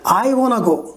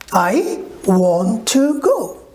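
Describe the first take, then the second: First: Want to is reduced and run together. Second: Want to is said as two full words. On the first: "a British or American will say I wanna go" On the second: "if I say I want to go"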